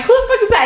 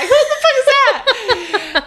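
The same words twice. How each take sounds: First: High startled cry. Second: High, slow, laughing squeal. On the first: Alone at night, startled by a stranger knocking. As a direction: yelp it out at a stranger at the door. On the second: Laughing at herself, squinting without glasses. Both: Retold or imitated.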